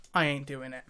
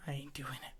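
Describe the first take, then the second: First: Said in the usual way. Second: Whispered refusal, very soft. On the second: Real, not acted. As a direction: repeat it under the breath, fully whispered. Same refusal repeated in a whisper.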